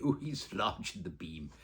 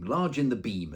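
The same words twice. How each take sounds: First: Slow, laughing, lightly genteel mum; a hint of a refined mother, slowed down; imitating mum. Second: Said in the usual way. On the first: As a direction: drawl it like mother used to. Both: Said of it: "as my mother would say".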